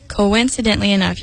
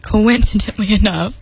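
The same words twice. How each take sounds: First: Said in the usual way. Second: "coincidentally" broken by a giggle; giggling. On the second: Real, not acted. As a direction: laugh in the middle of it. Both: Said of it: "I'm just giggly tonight".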